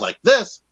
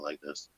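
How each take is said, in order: First: The voice is lively and energetic. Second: The voice is calm and even. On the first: "Sometimes I get a little bit more energetic like this" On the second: "but usually I'm talking like this"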